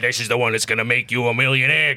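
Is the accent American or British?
American. It is said in a gruff American accent. "chomping on a big cigar"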